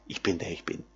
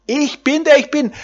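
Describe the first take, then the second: First: Hushed reverence. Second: High, ringing declaration of God's name; exultant proclamation. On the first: Preacher to his listeners, repeating God's name hushed and low. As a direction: lower and much softer, almost to himself. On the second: Preacher to his listeners, proclaiming God's name high and ringing. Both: Acted.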